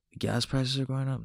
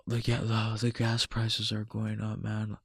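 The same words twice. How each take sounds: First: "The gas prices are going up?" lifted as a question; questioning echo. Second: Soft, resigned grumble, imitated; mock complaining. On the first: Acted. Questions the complaint back. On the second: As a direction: quietly mimic someone griping. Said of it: "bitching, moaning, and complaining like".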